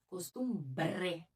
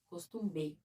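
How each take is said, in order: First: The word is said with an R after the B. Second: The word is said without an R after the B. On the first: The speaker calls it right. "tem um R" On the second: The speaker calls it wrong. "Porque não é costume, costumbe, não"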